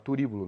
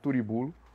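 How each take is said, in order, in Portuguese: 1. A palavra tem a tonicidade habitual. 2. A tonicidade é deslocada para outra sílaba.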